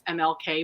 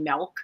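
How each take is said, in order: First: It is spelled out letter by letter. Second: It is read as one short word. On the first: "it's M-L-K Boulevard" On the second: "but she'll say "Melk.""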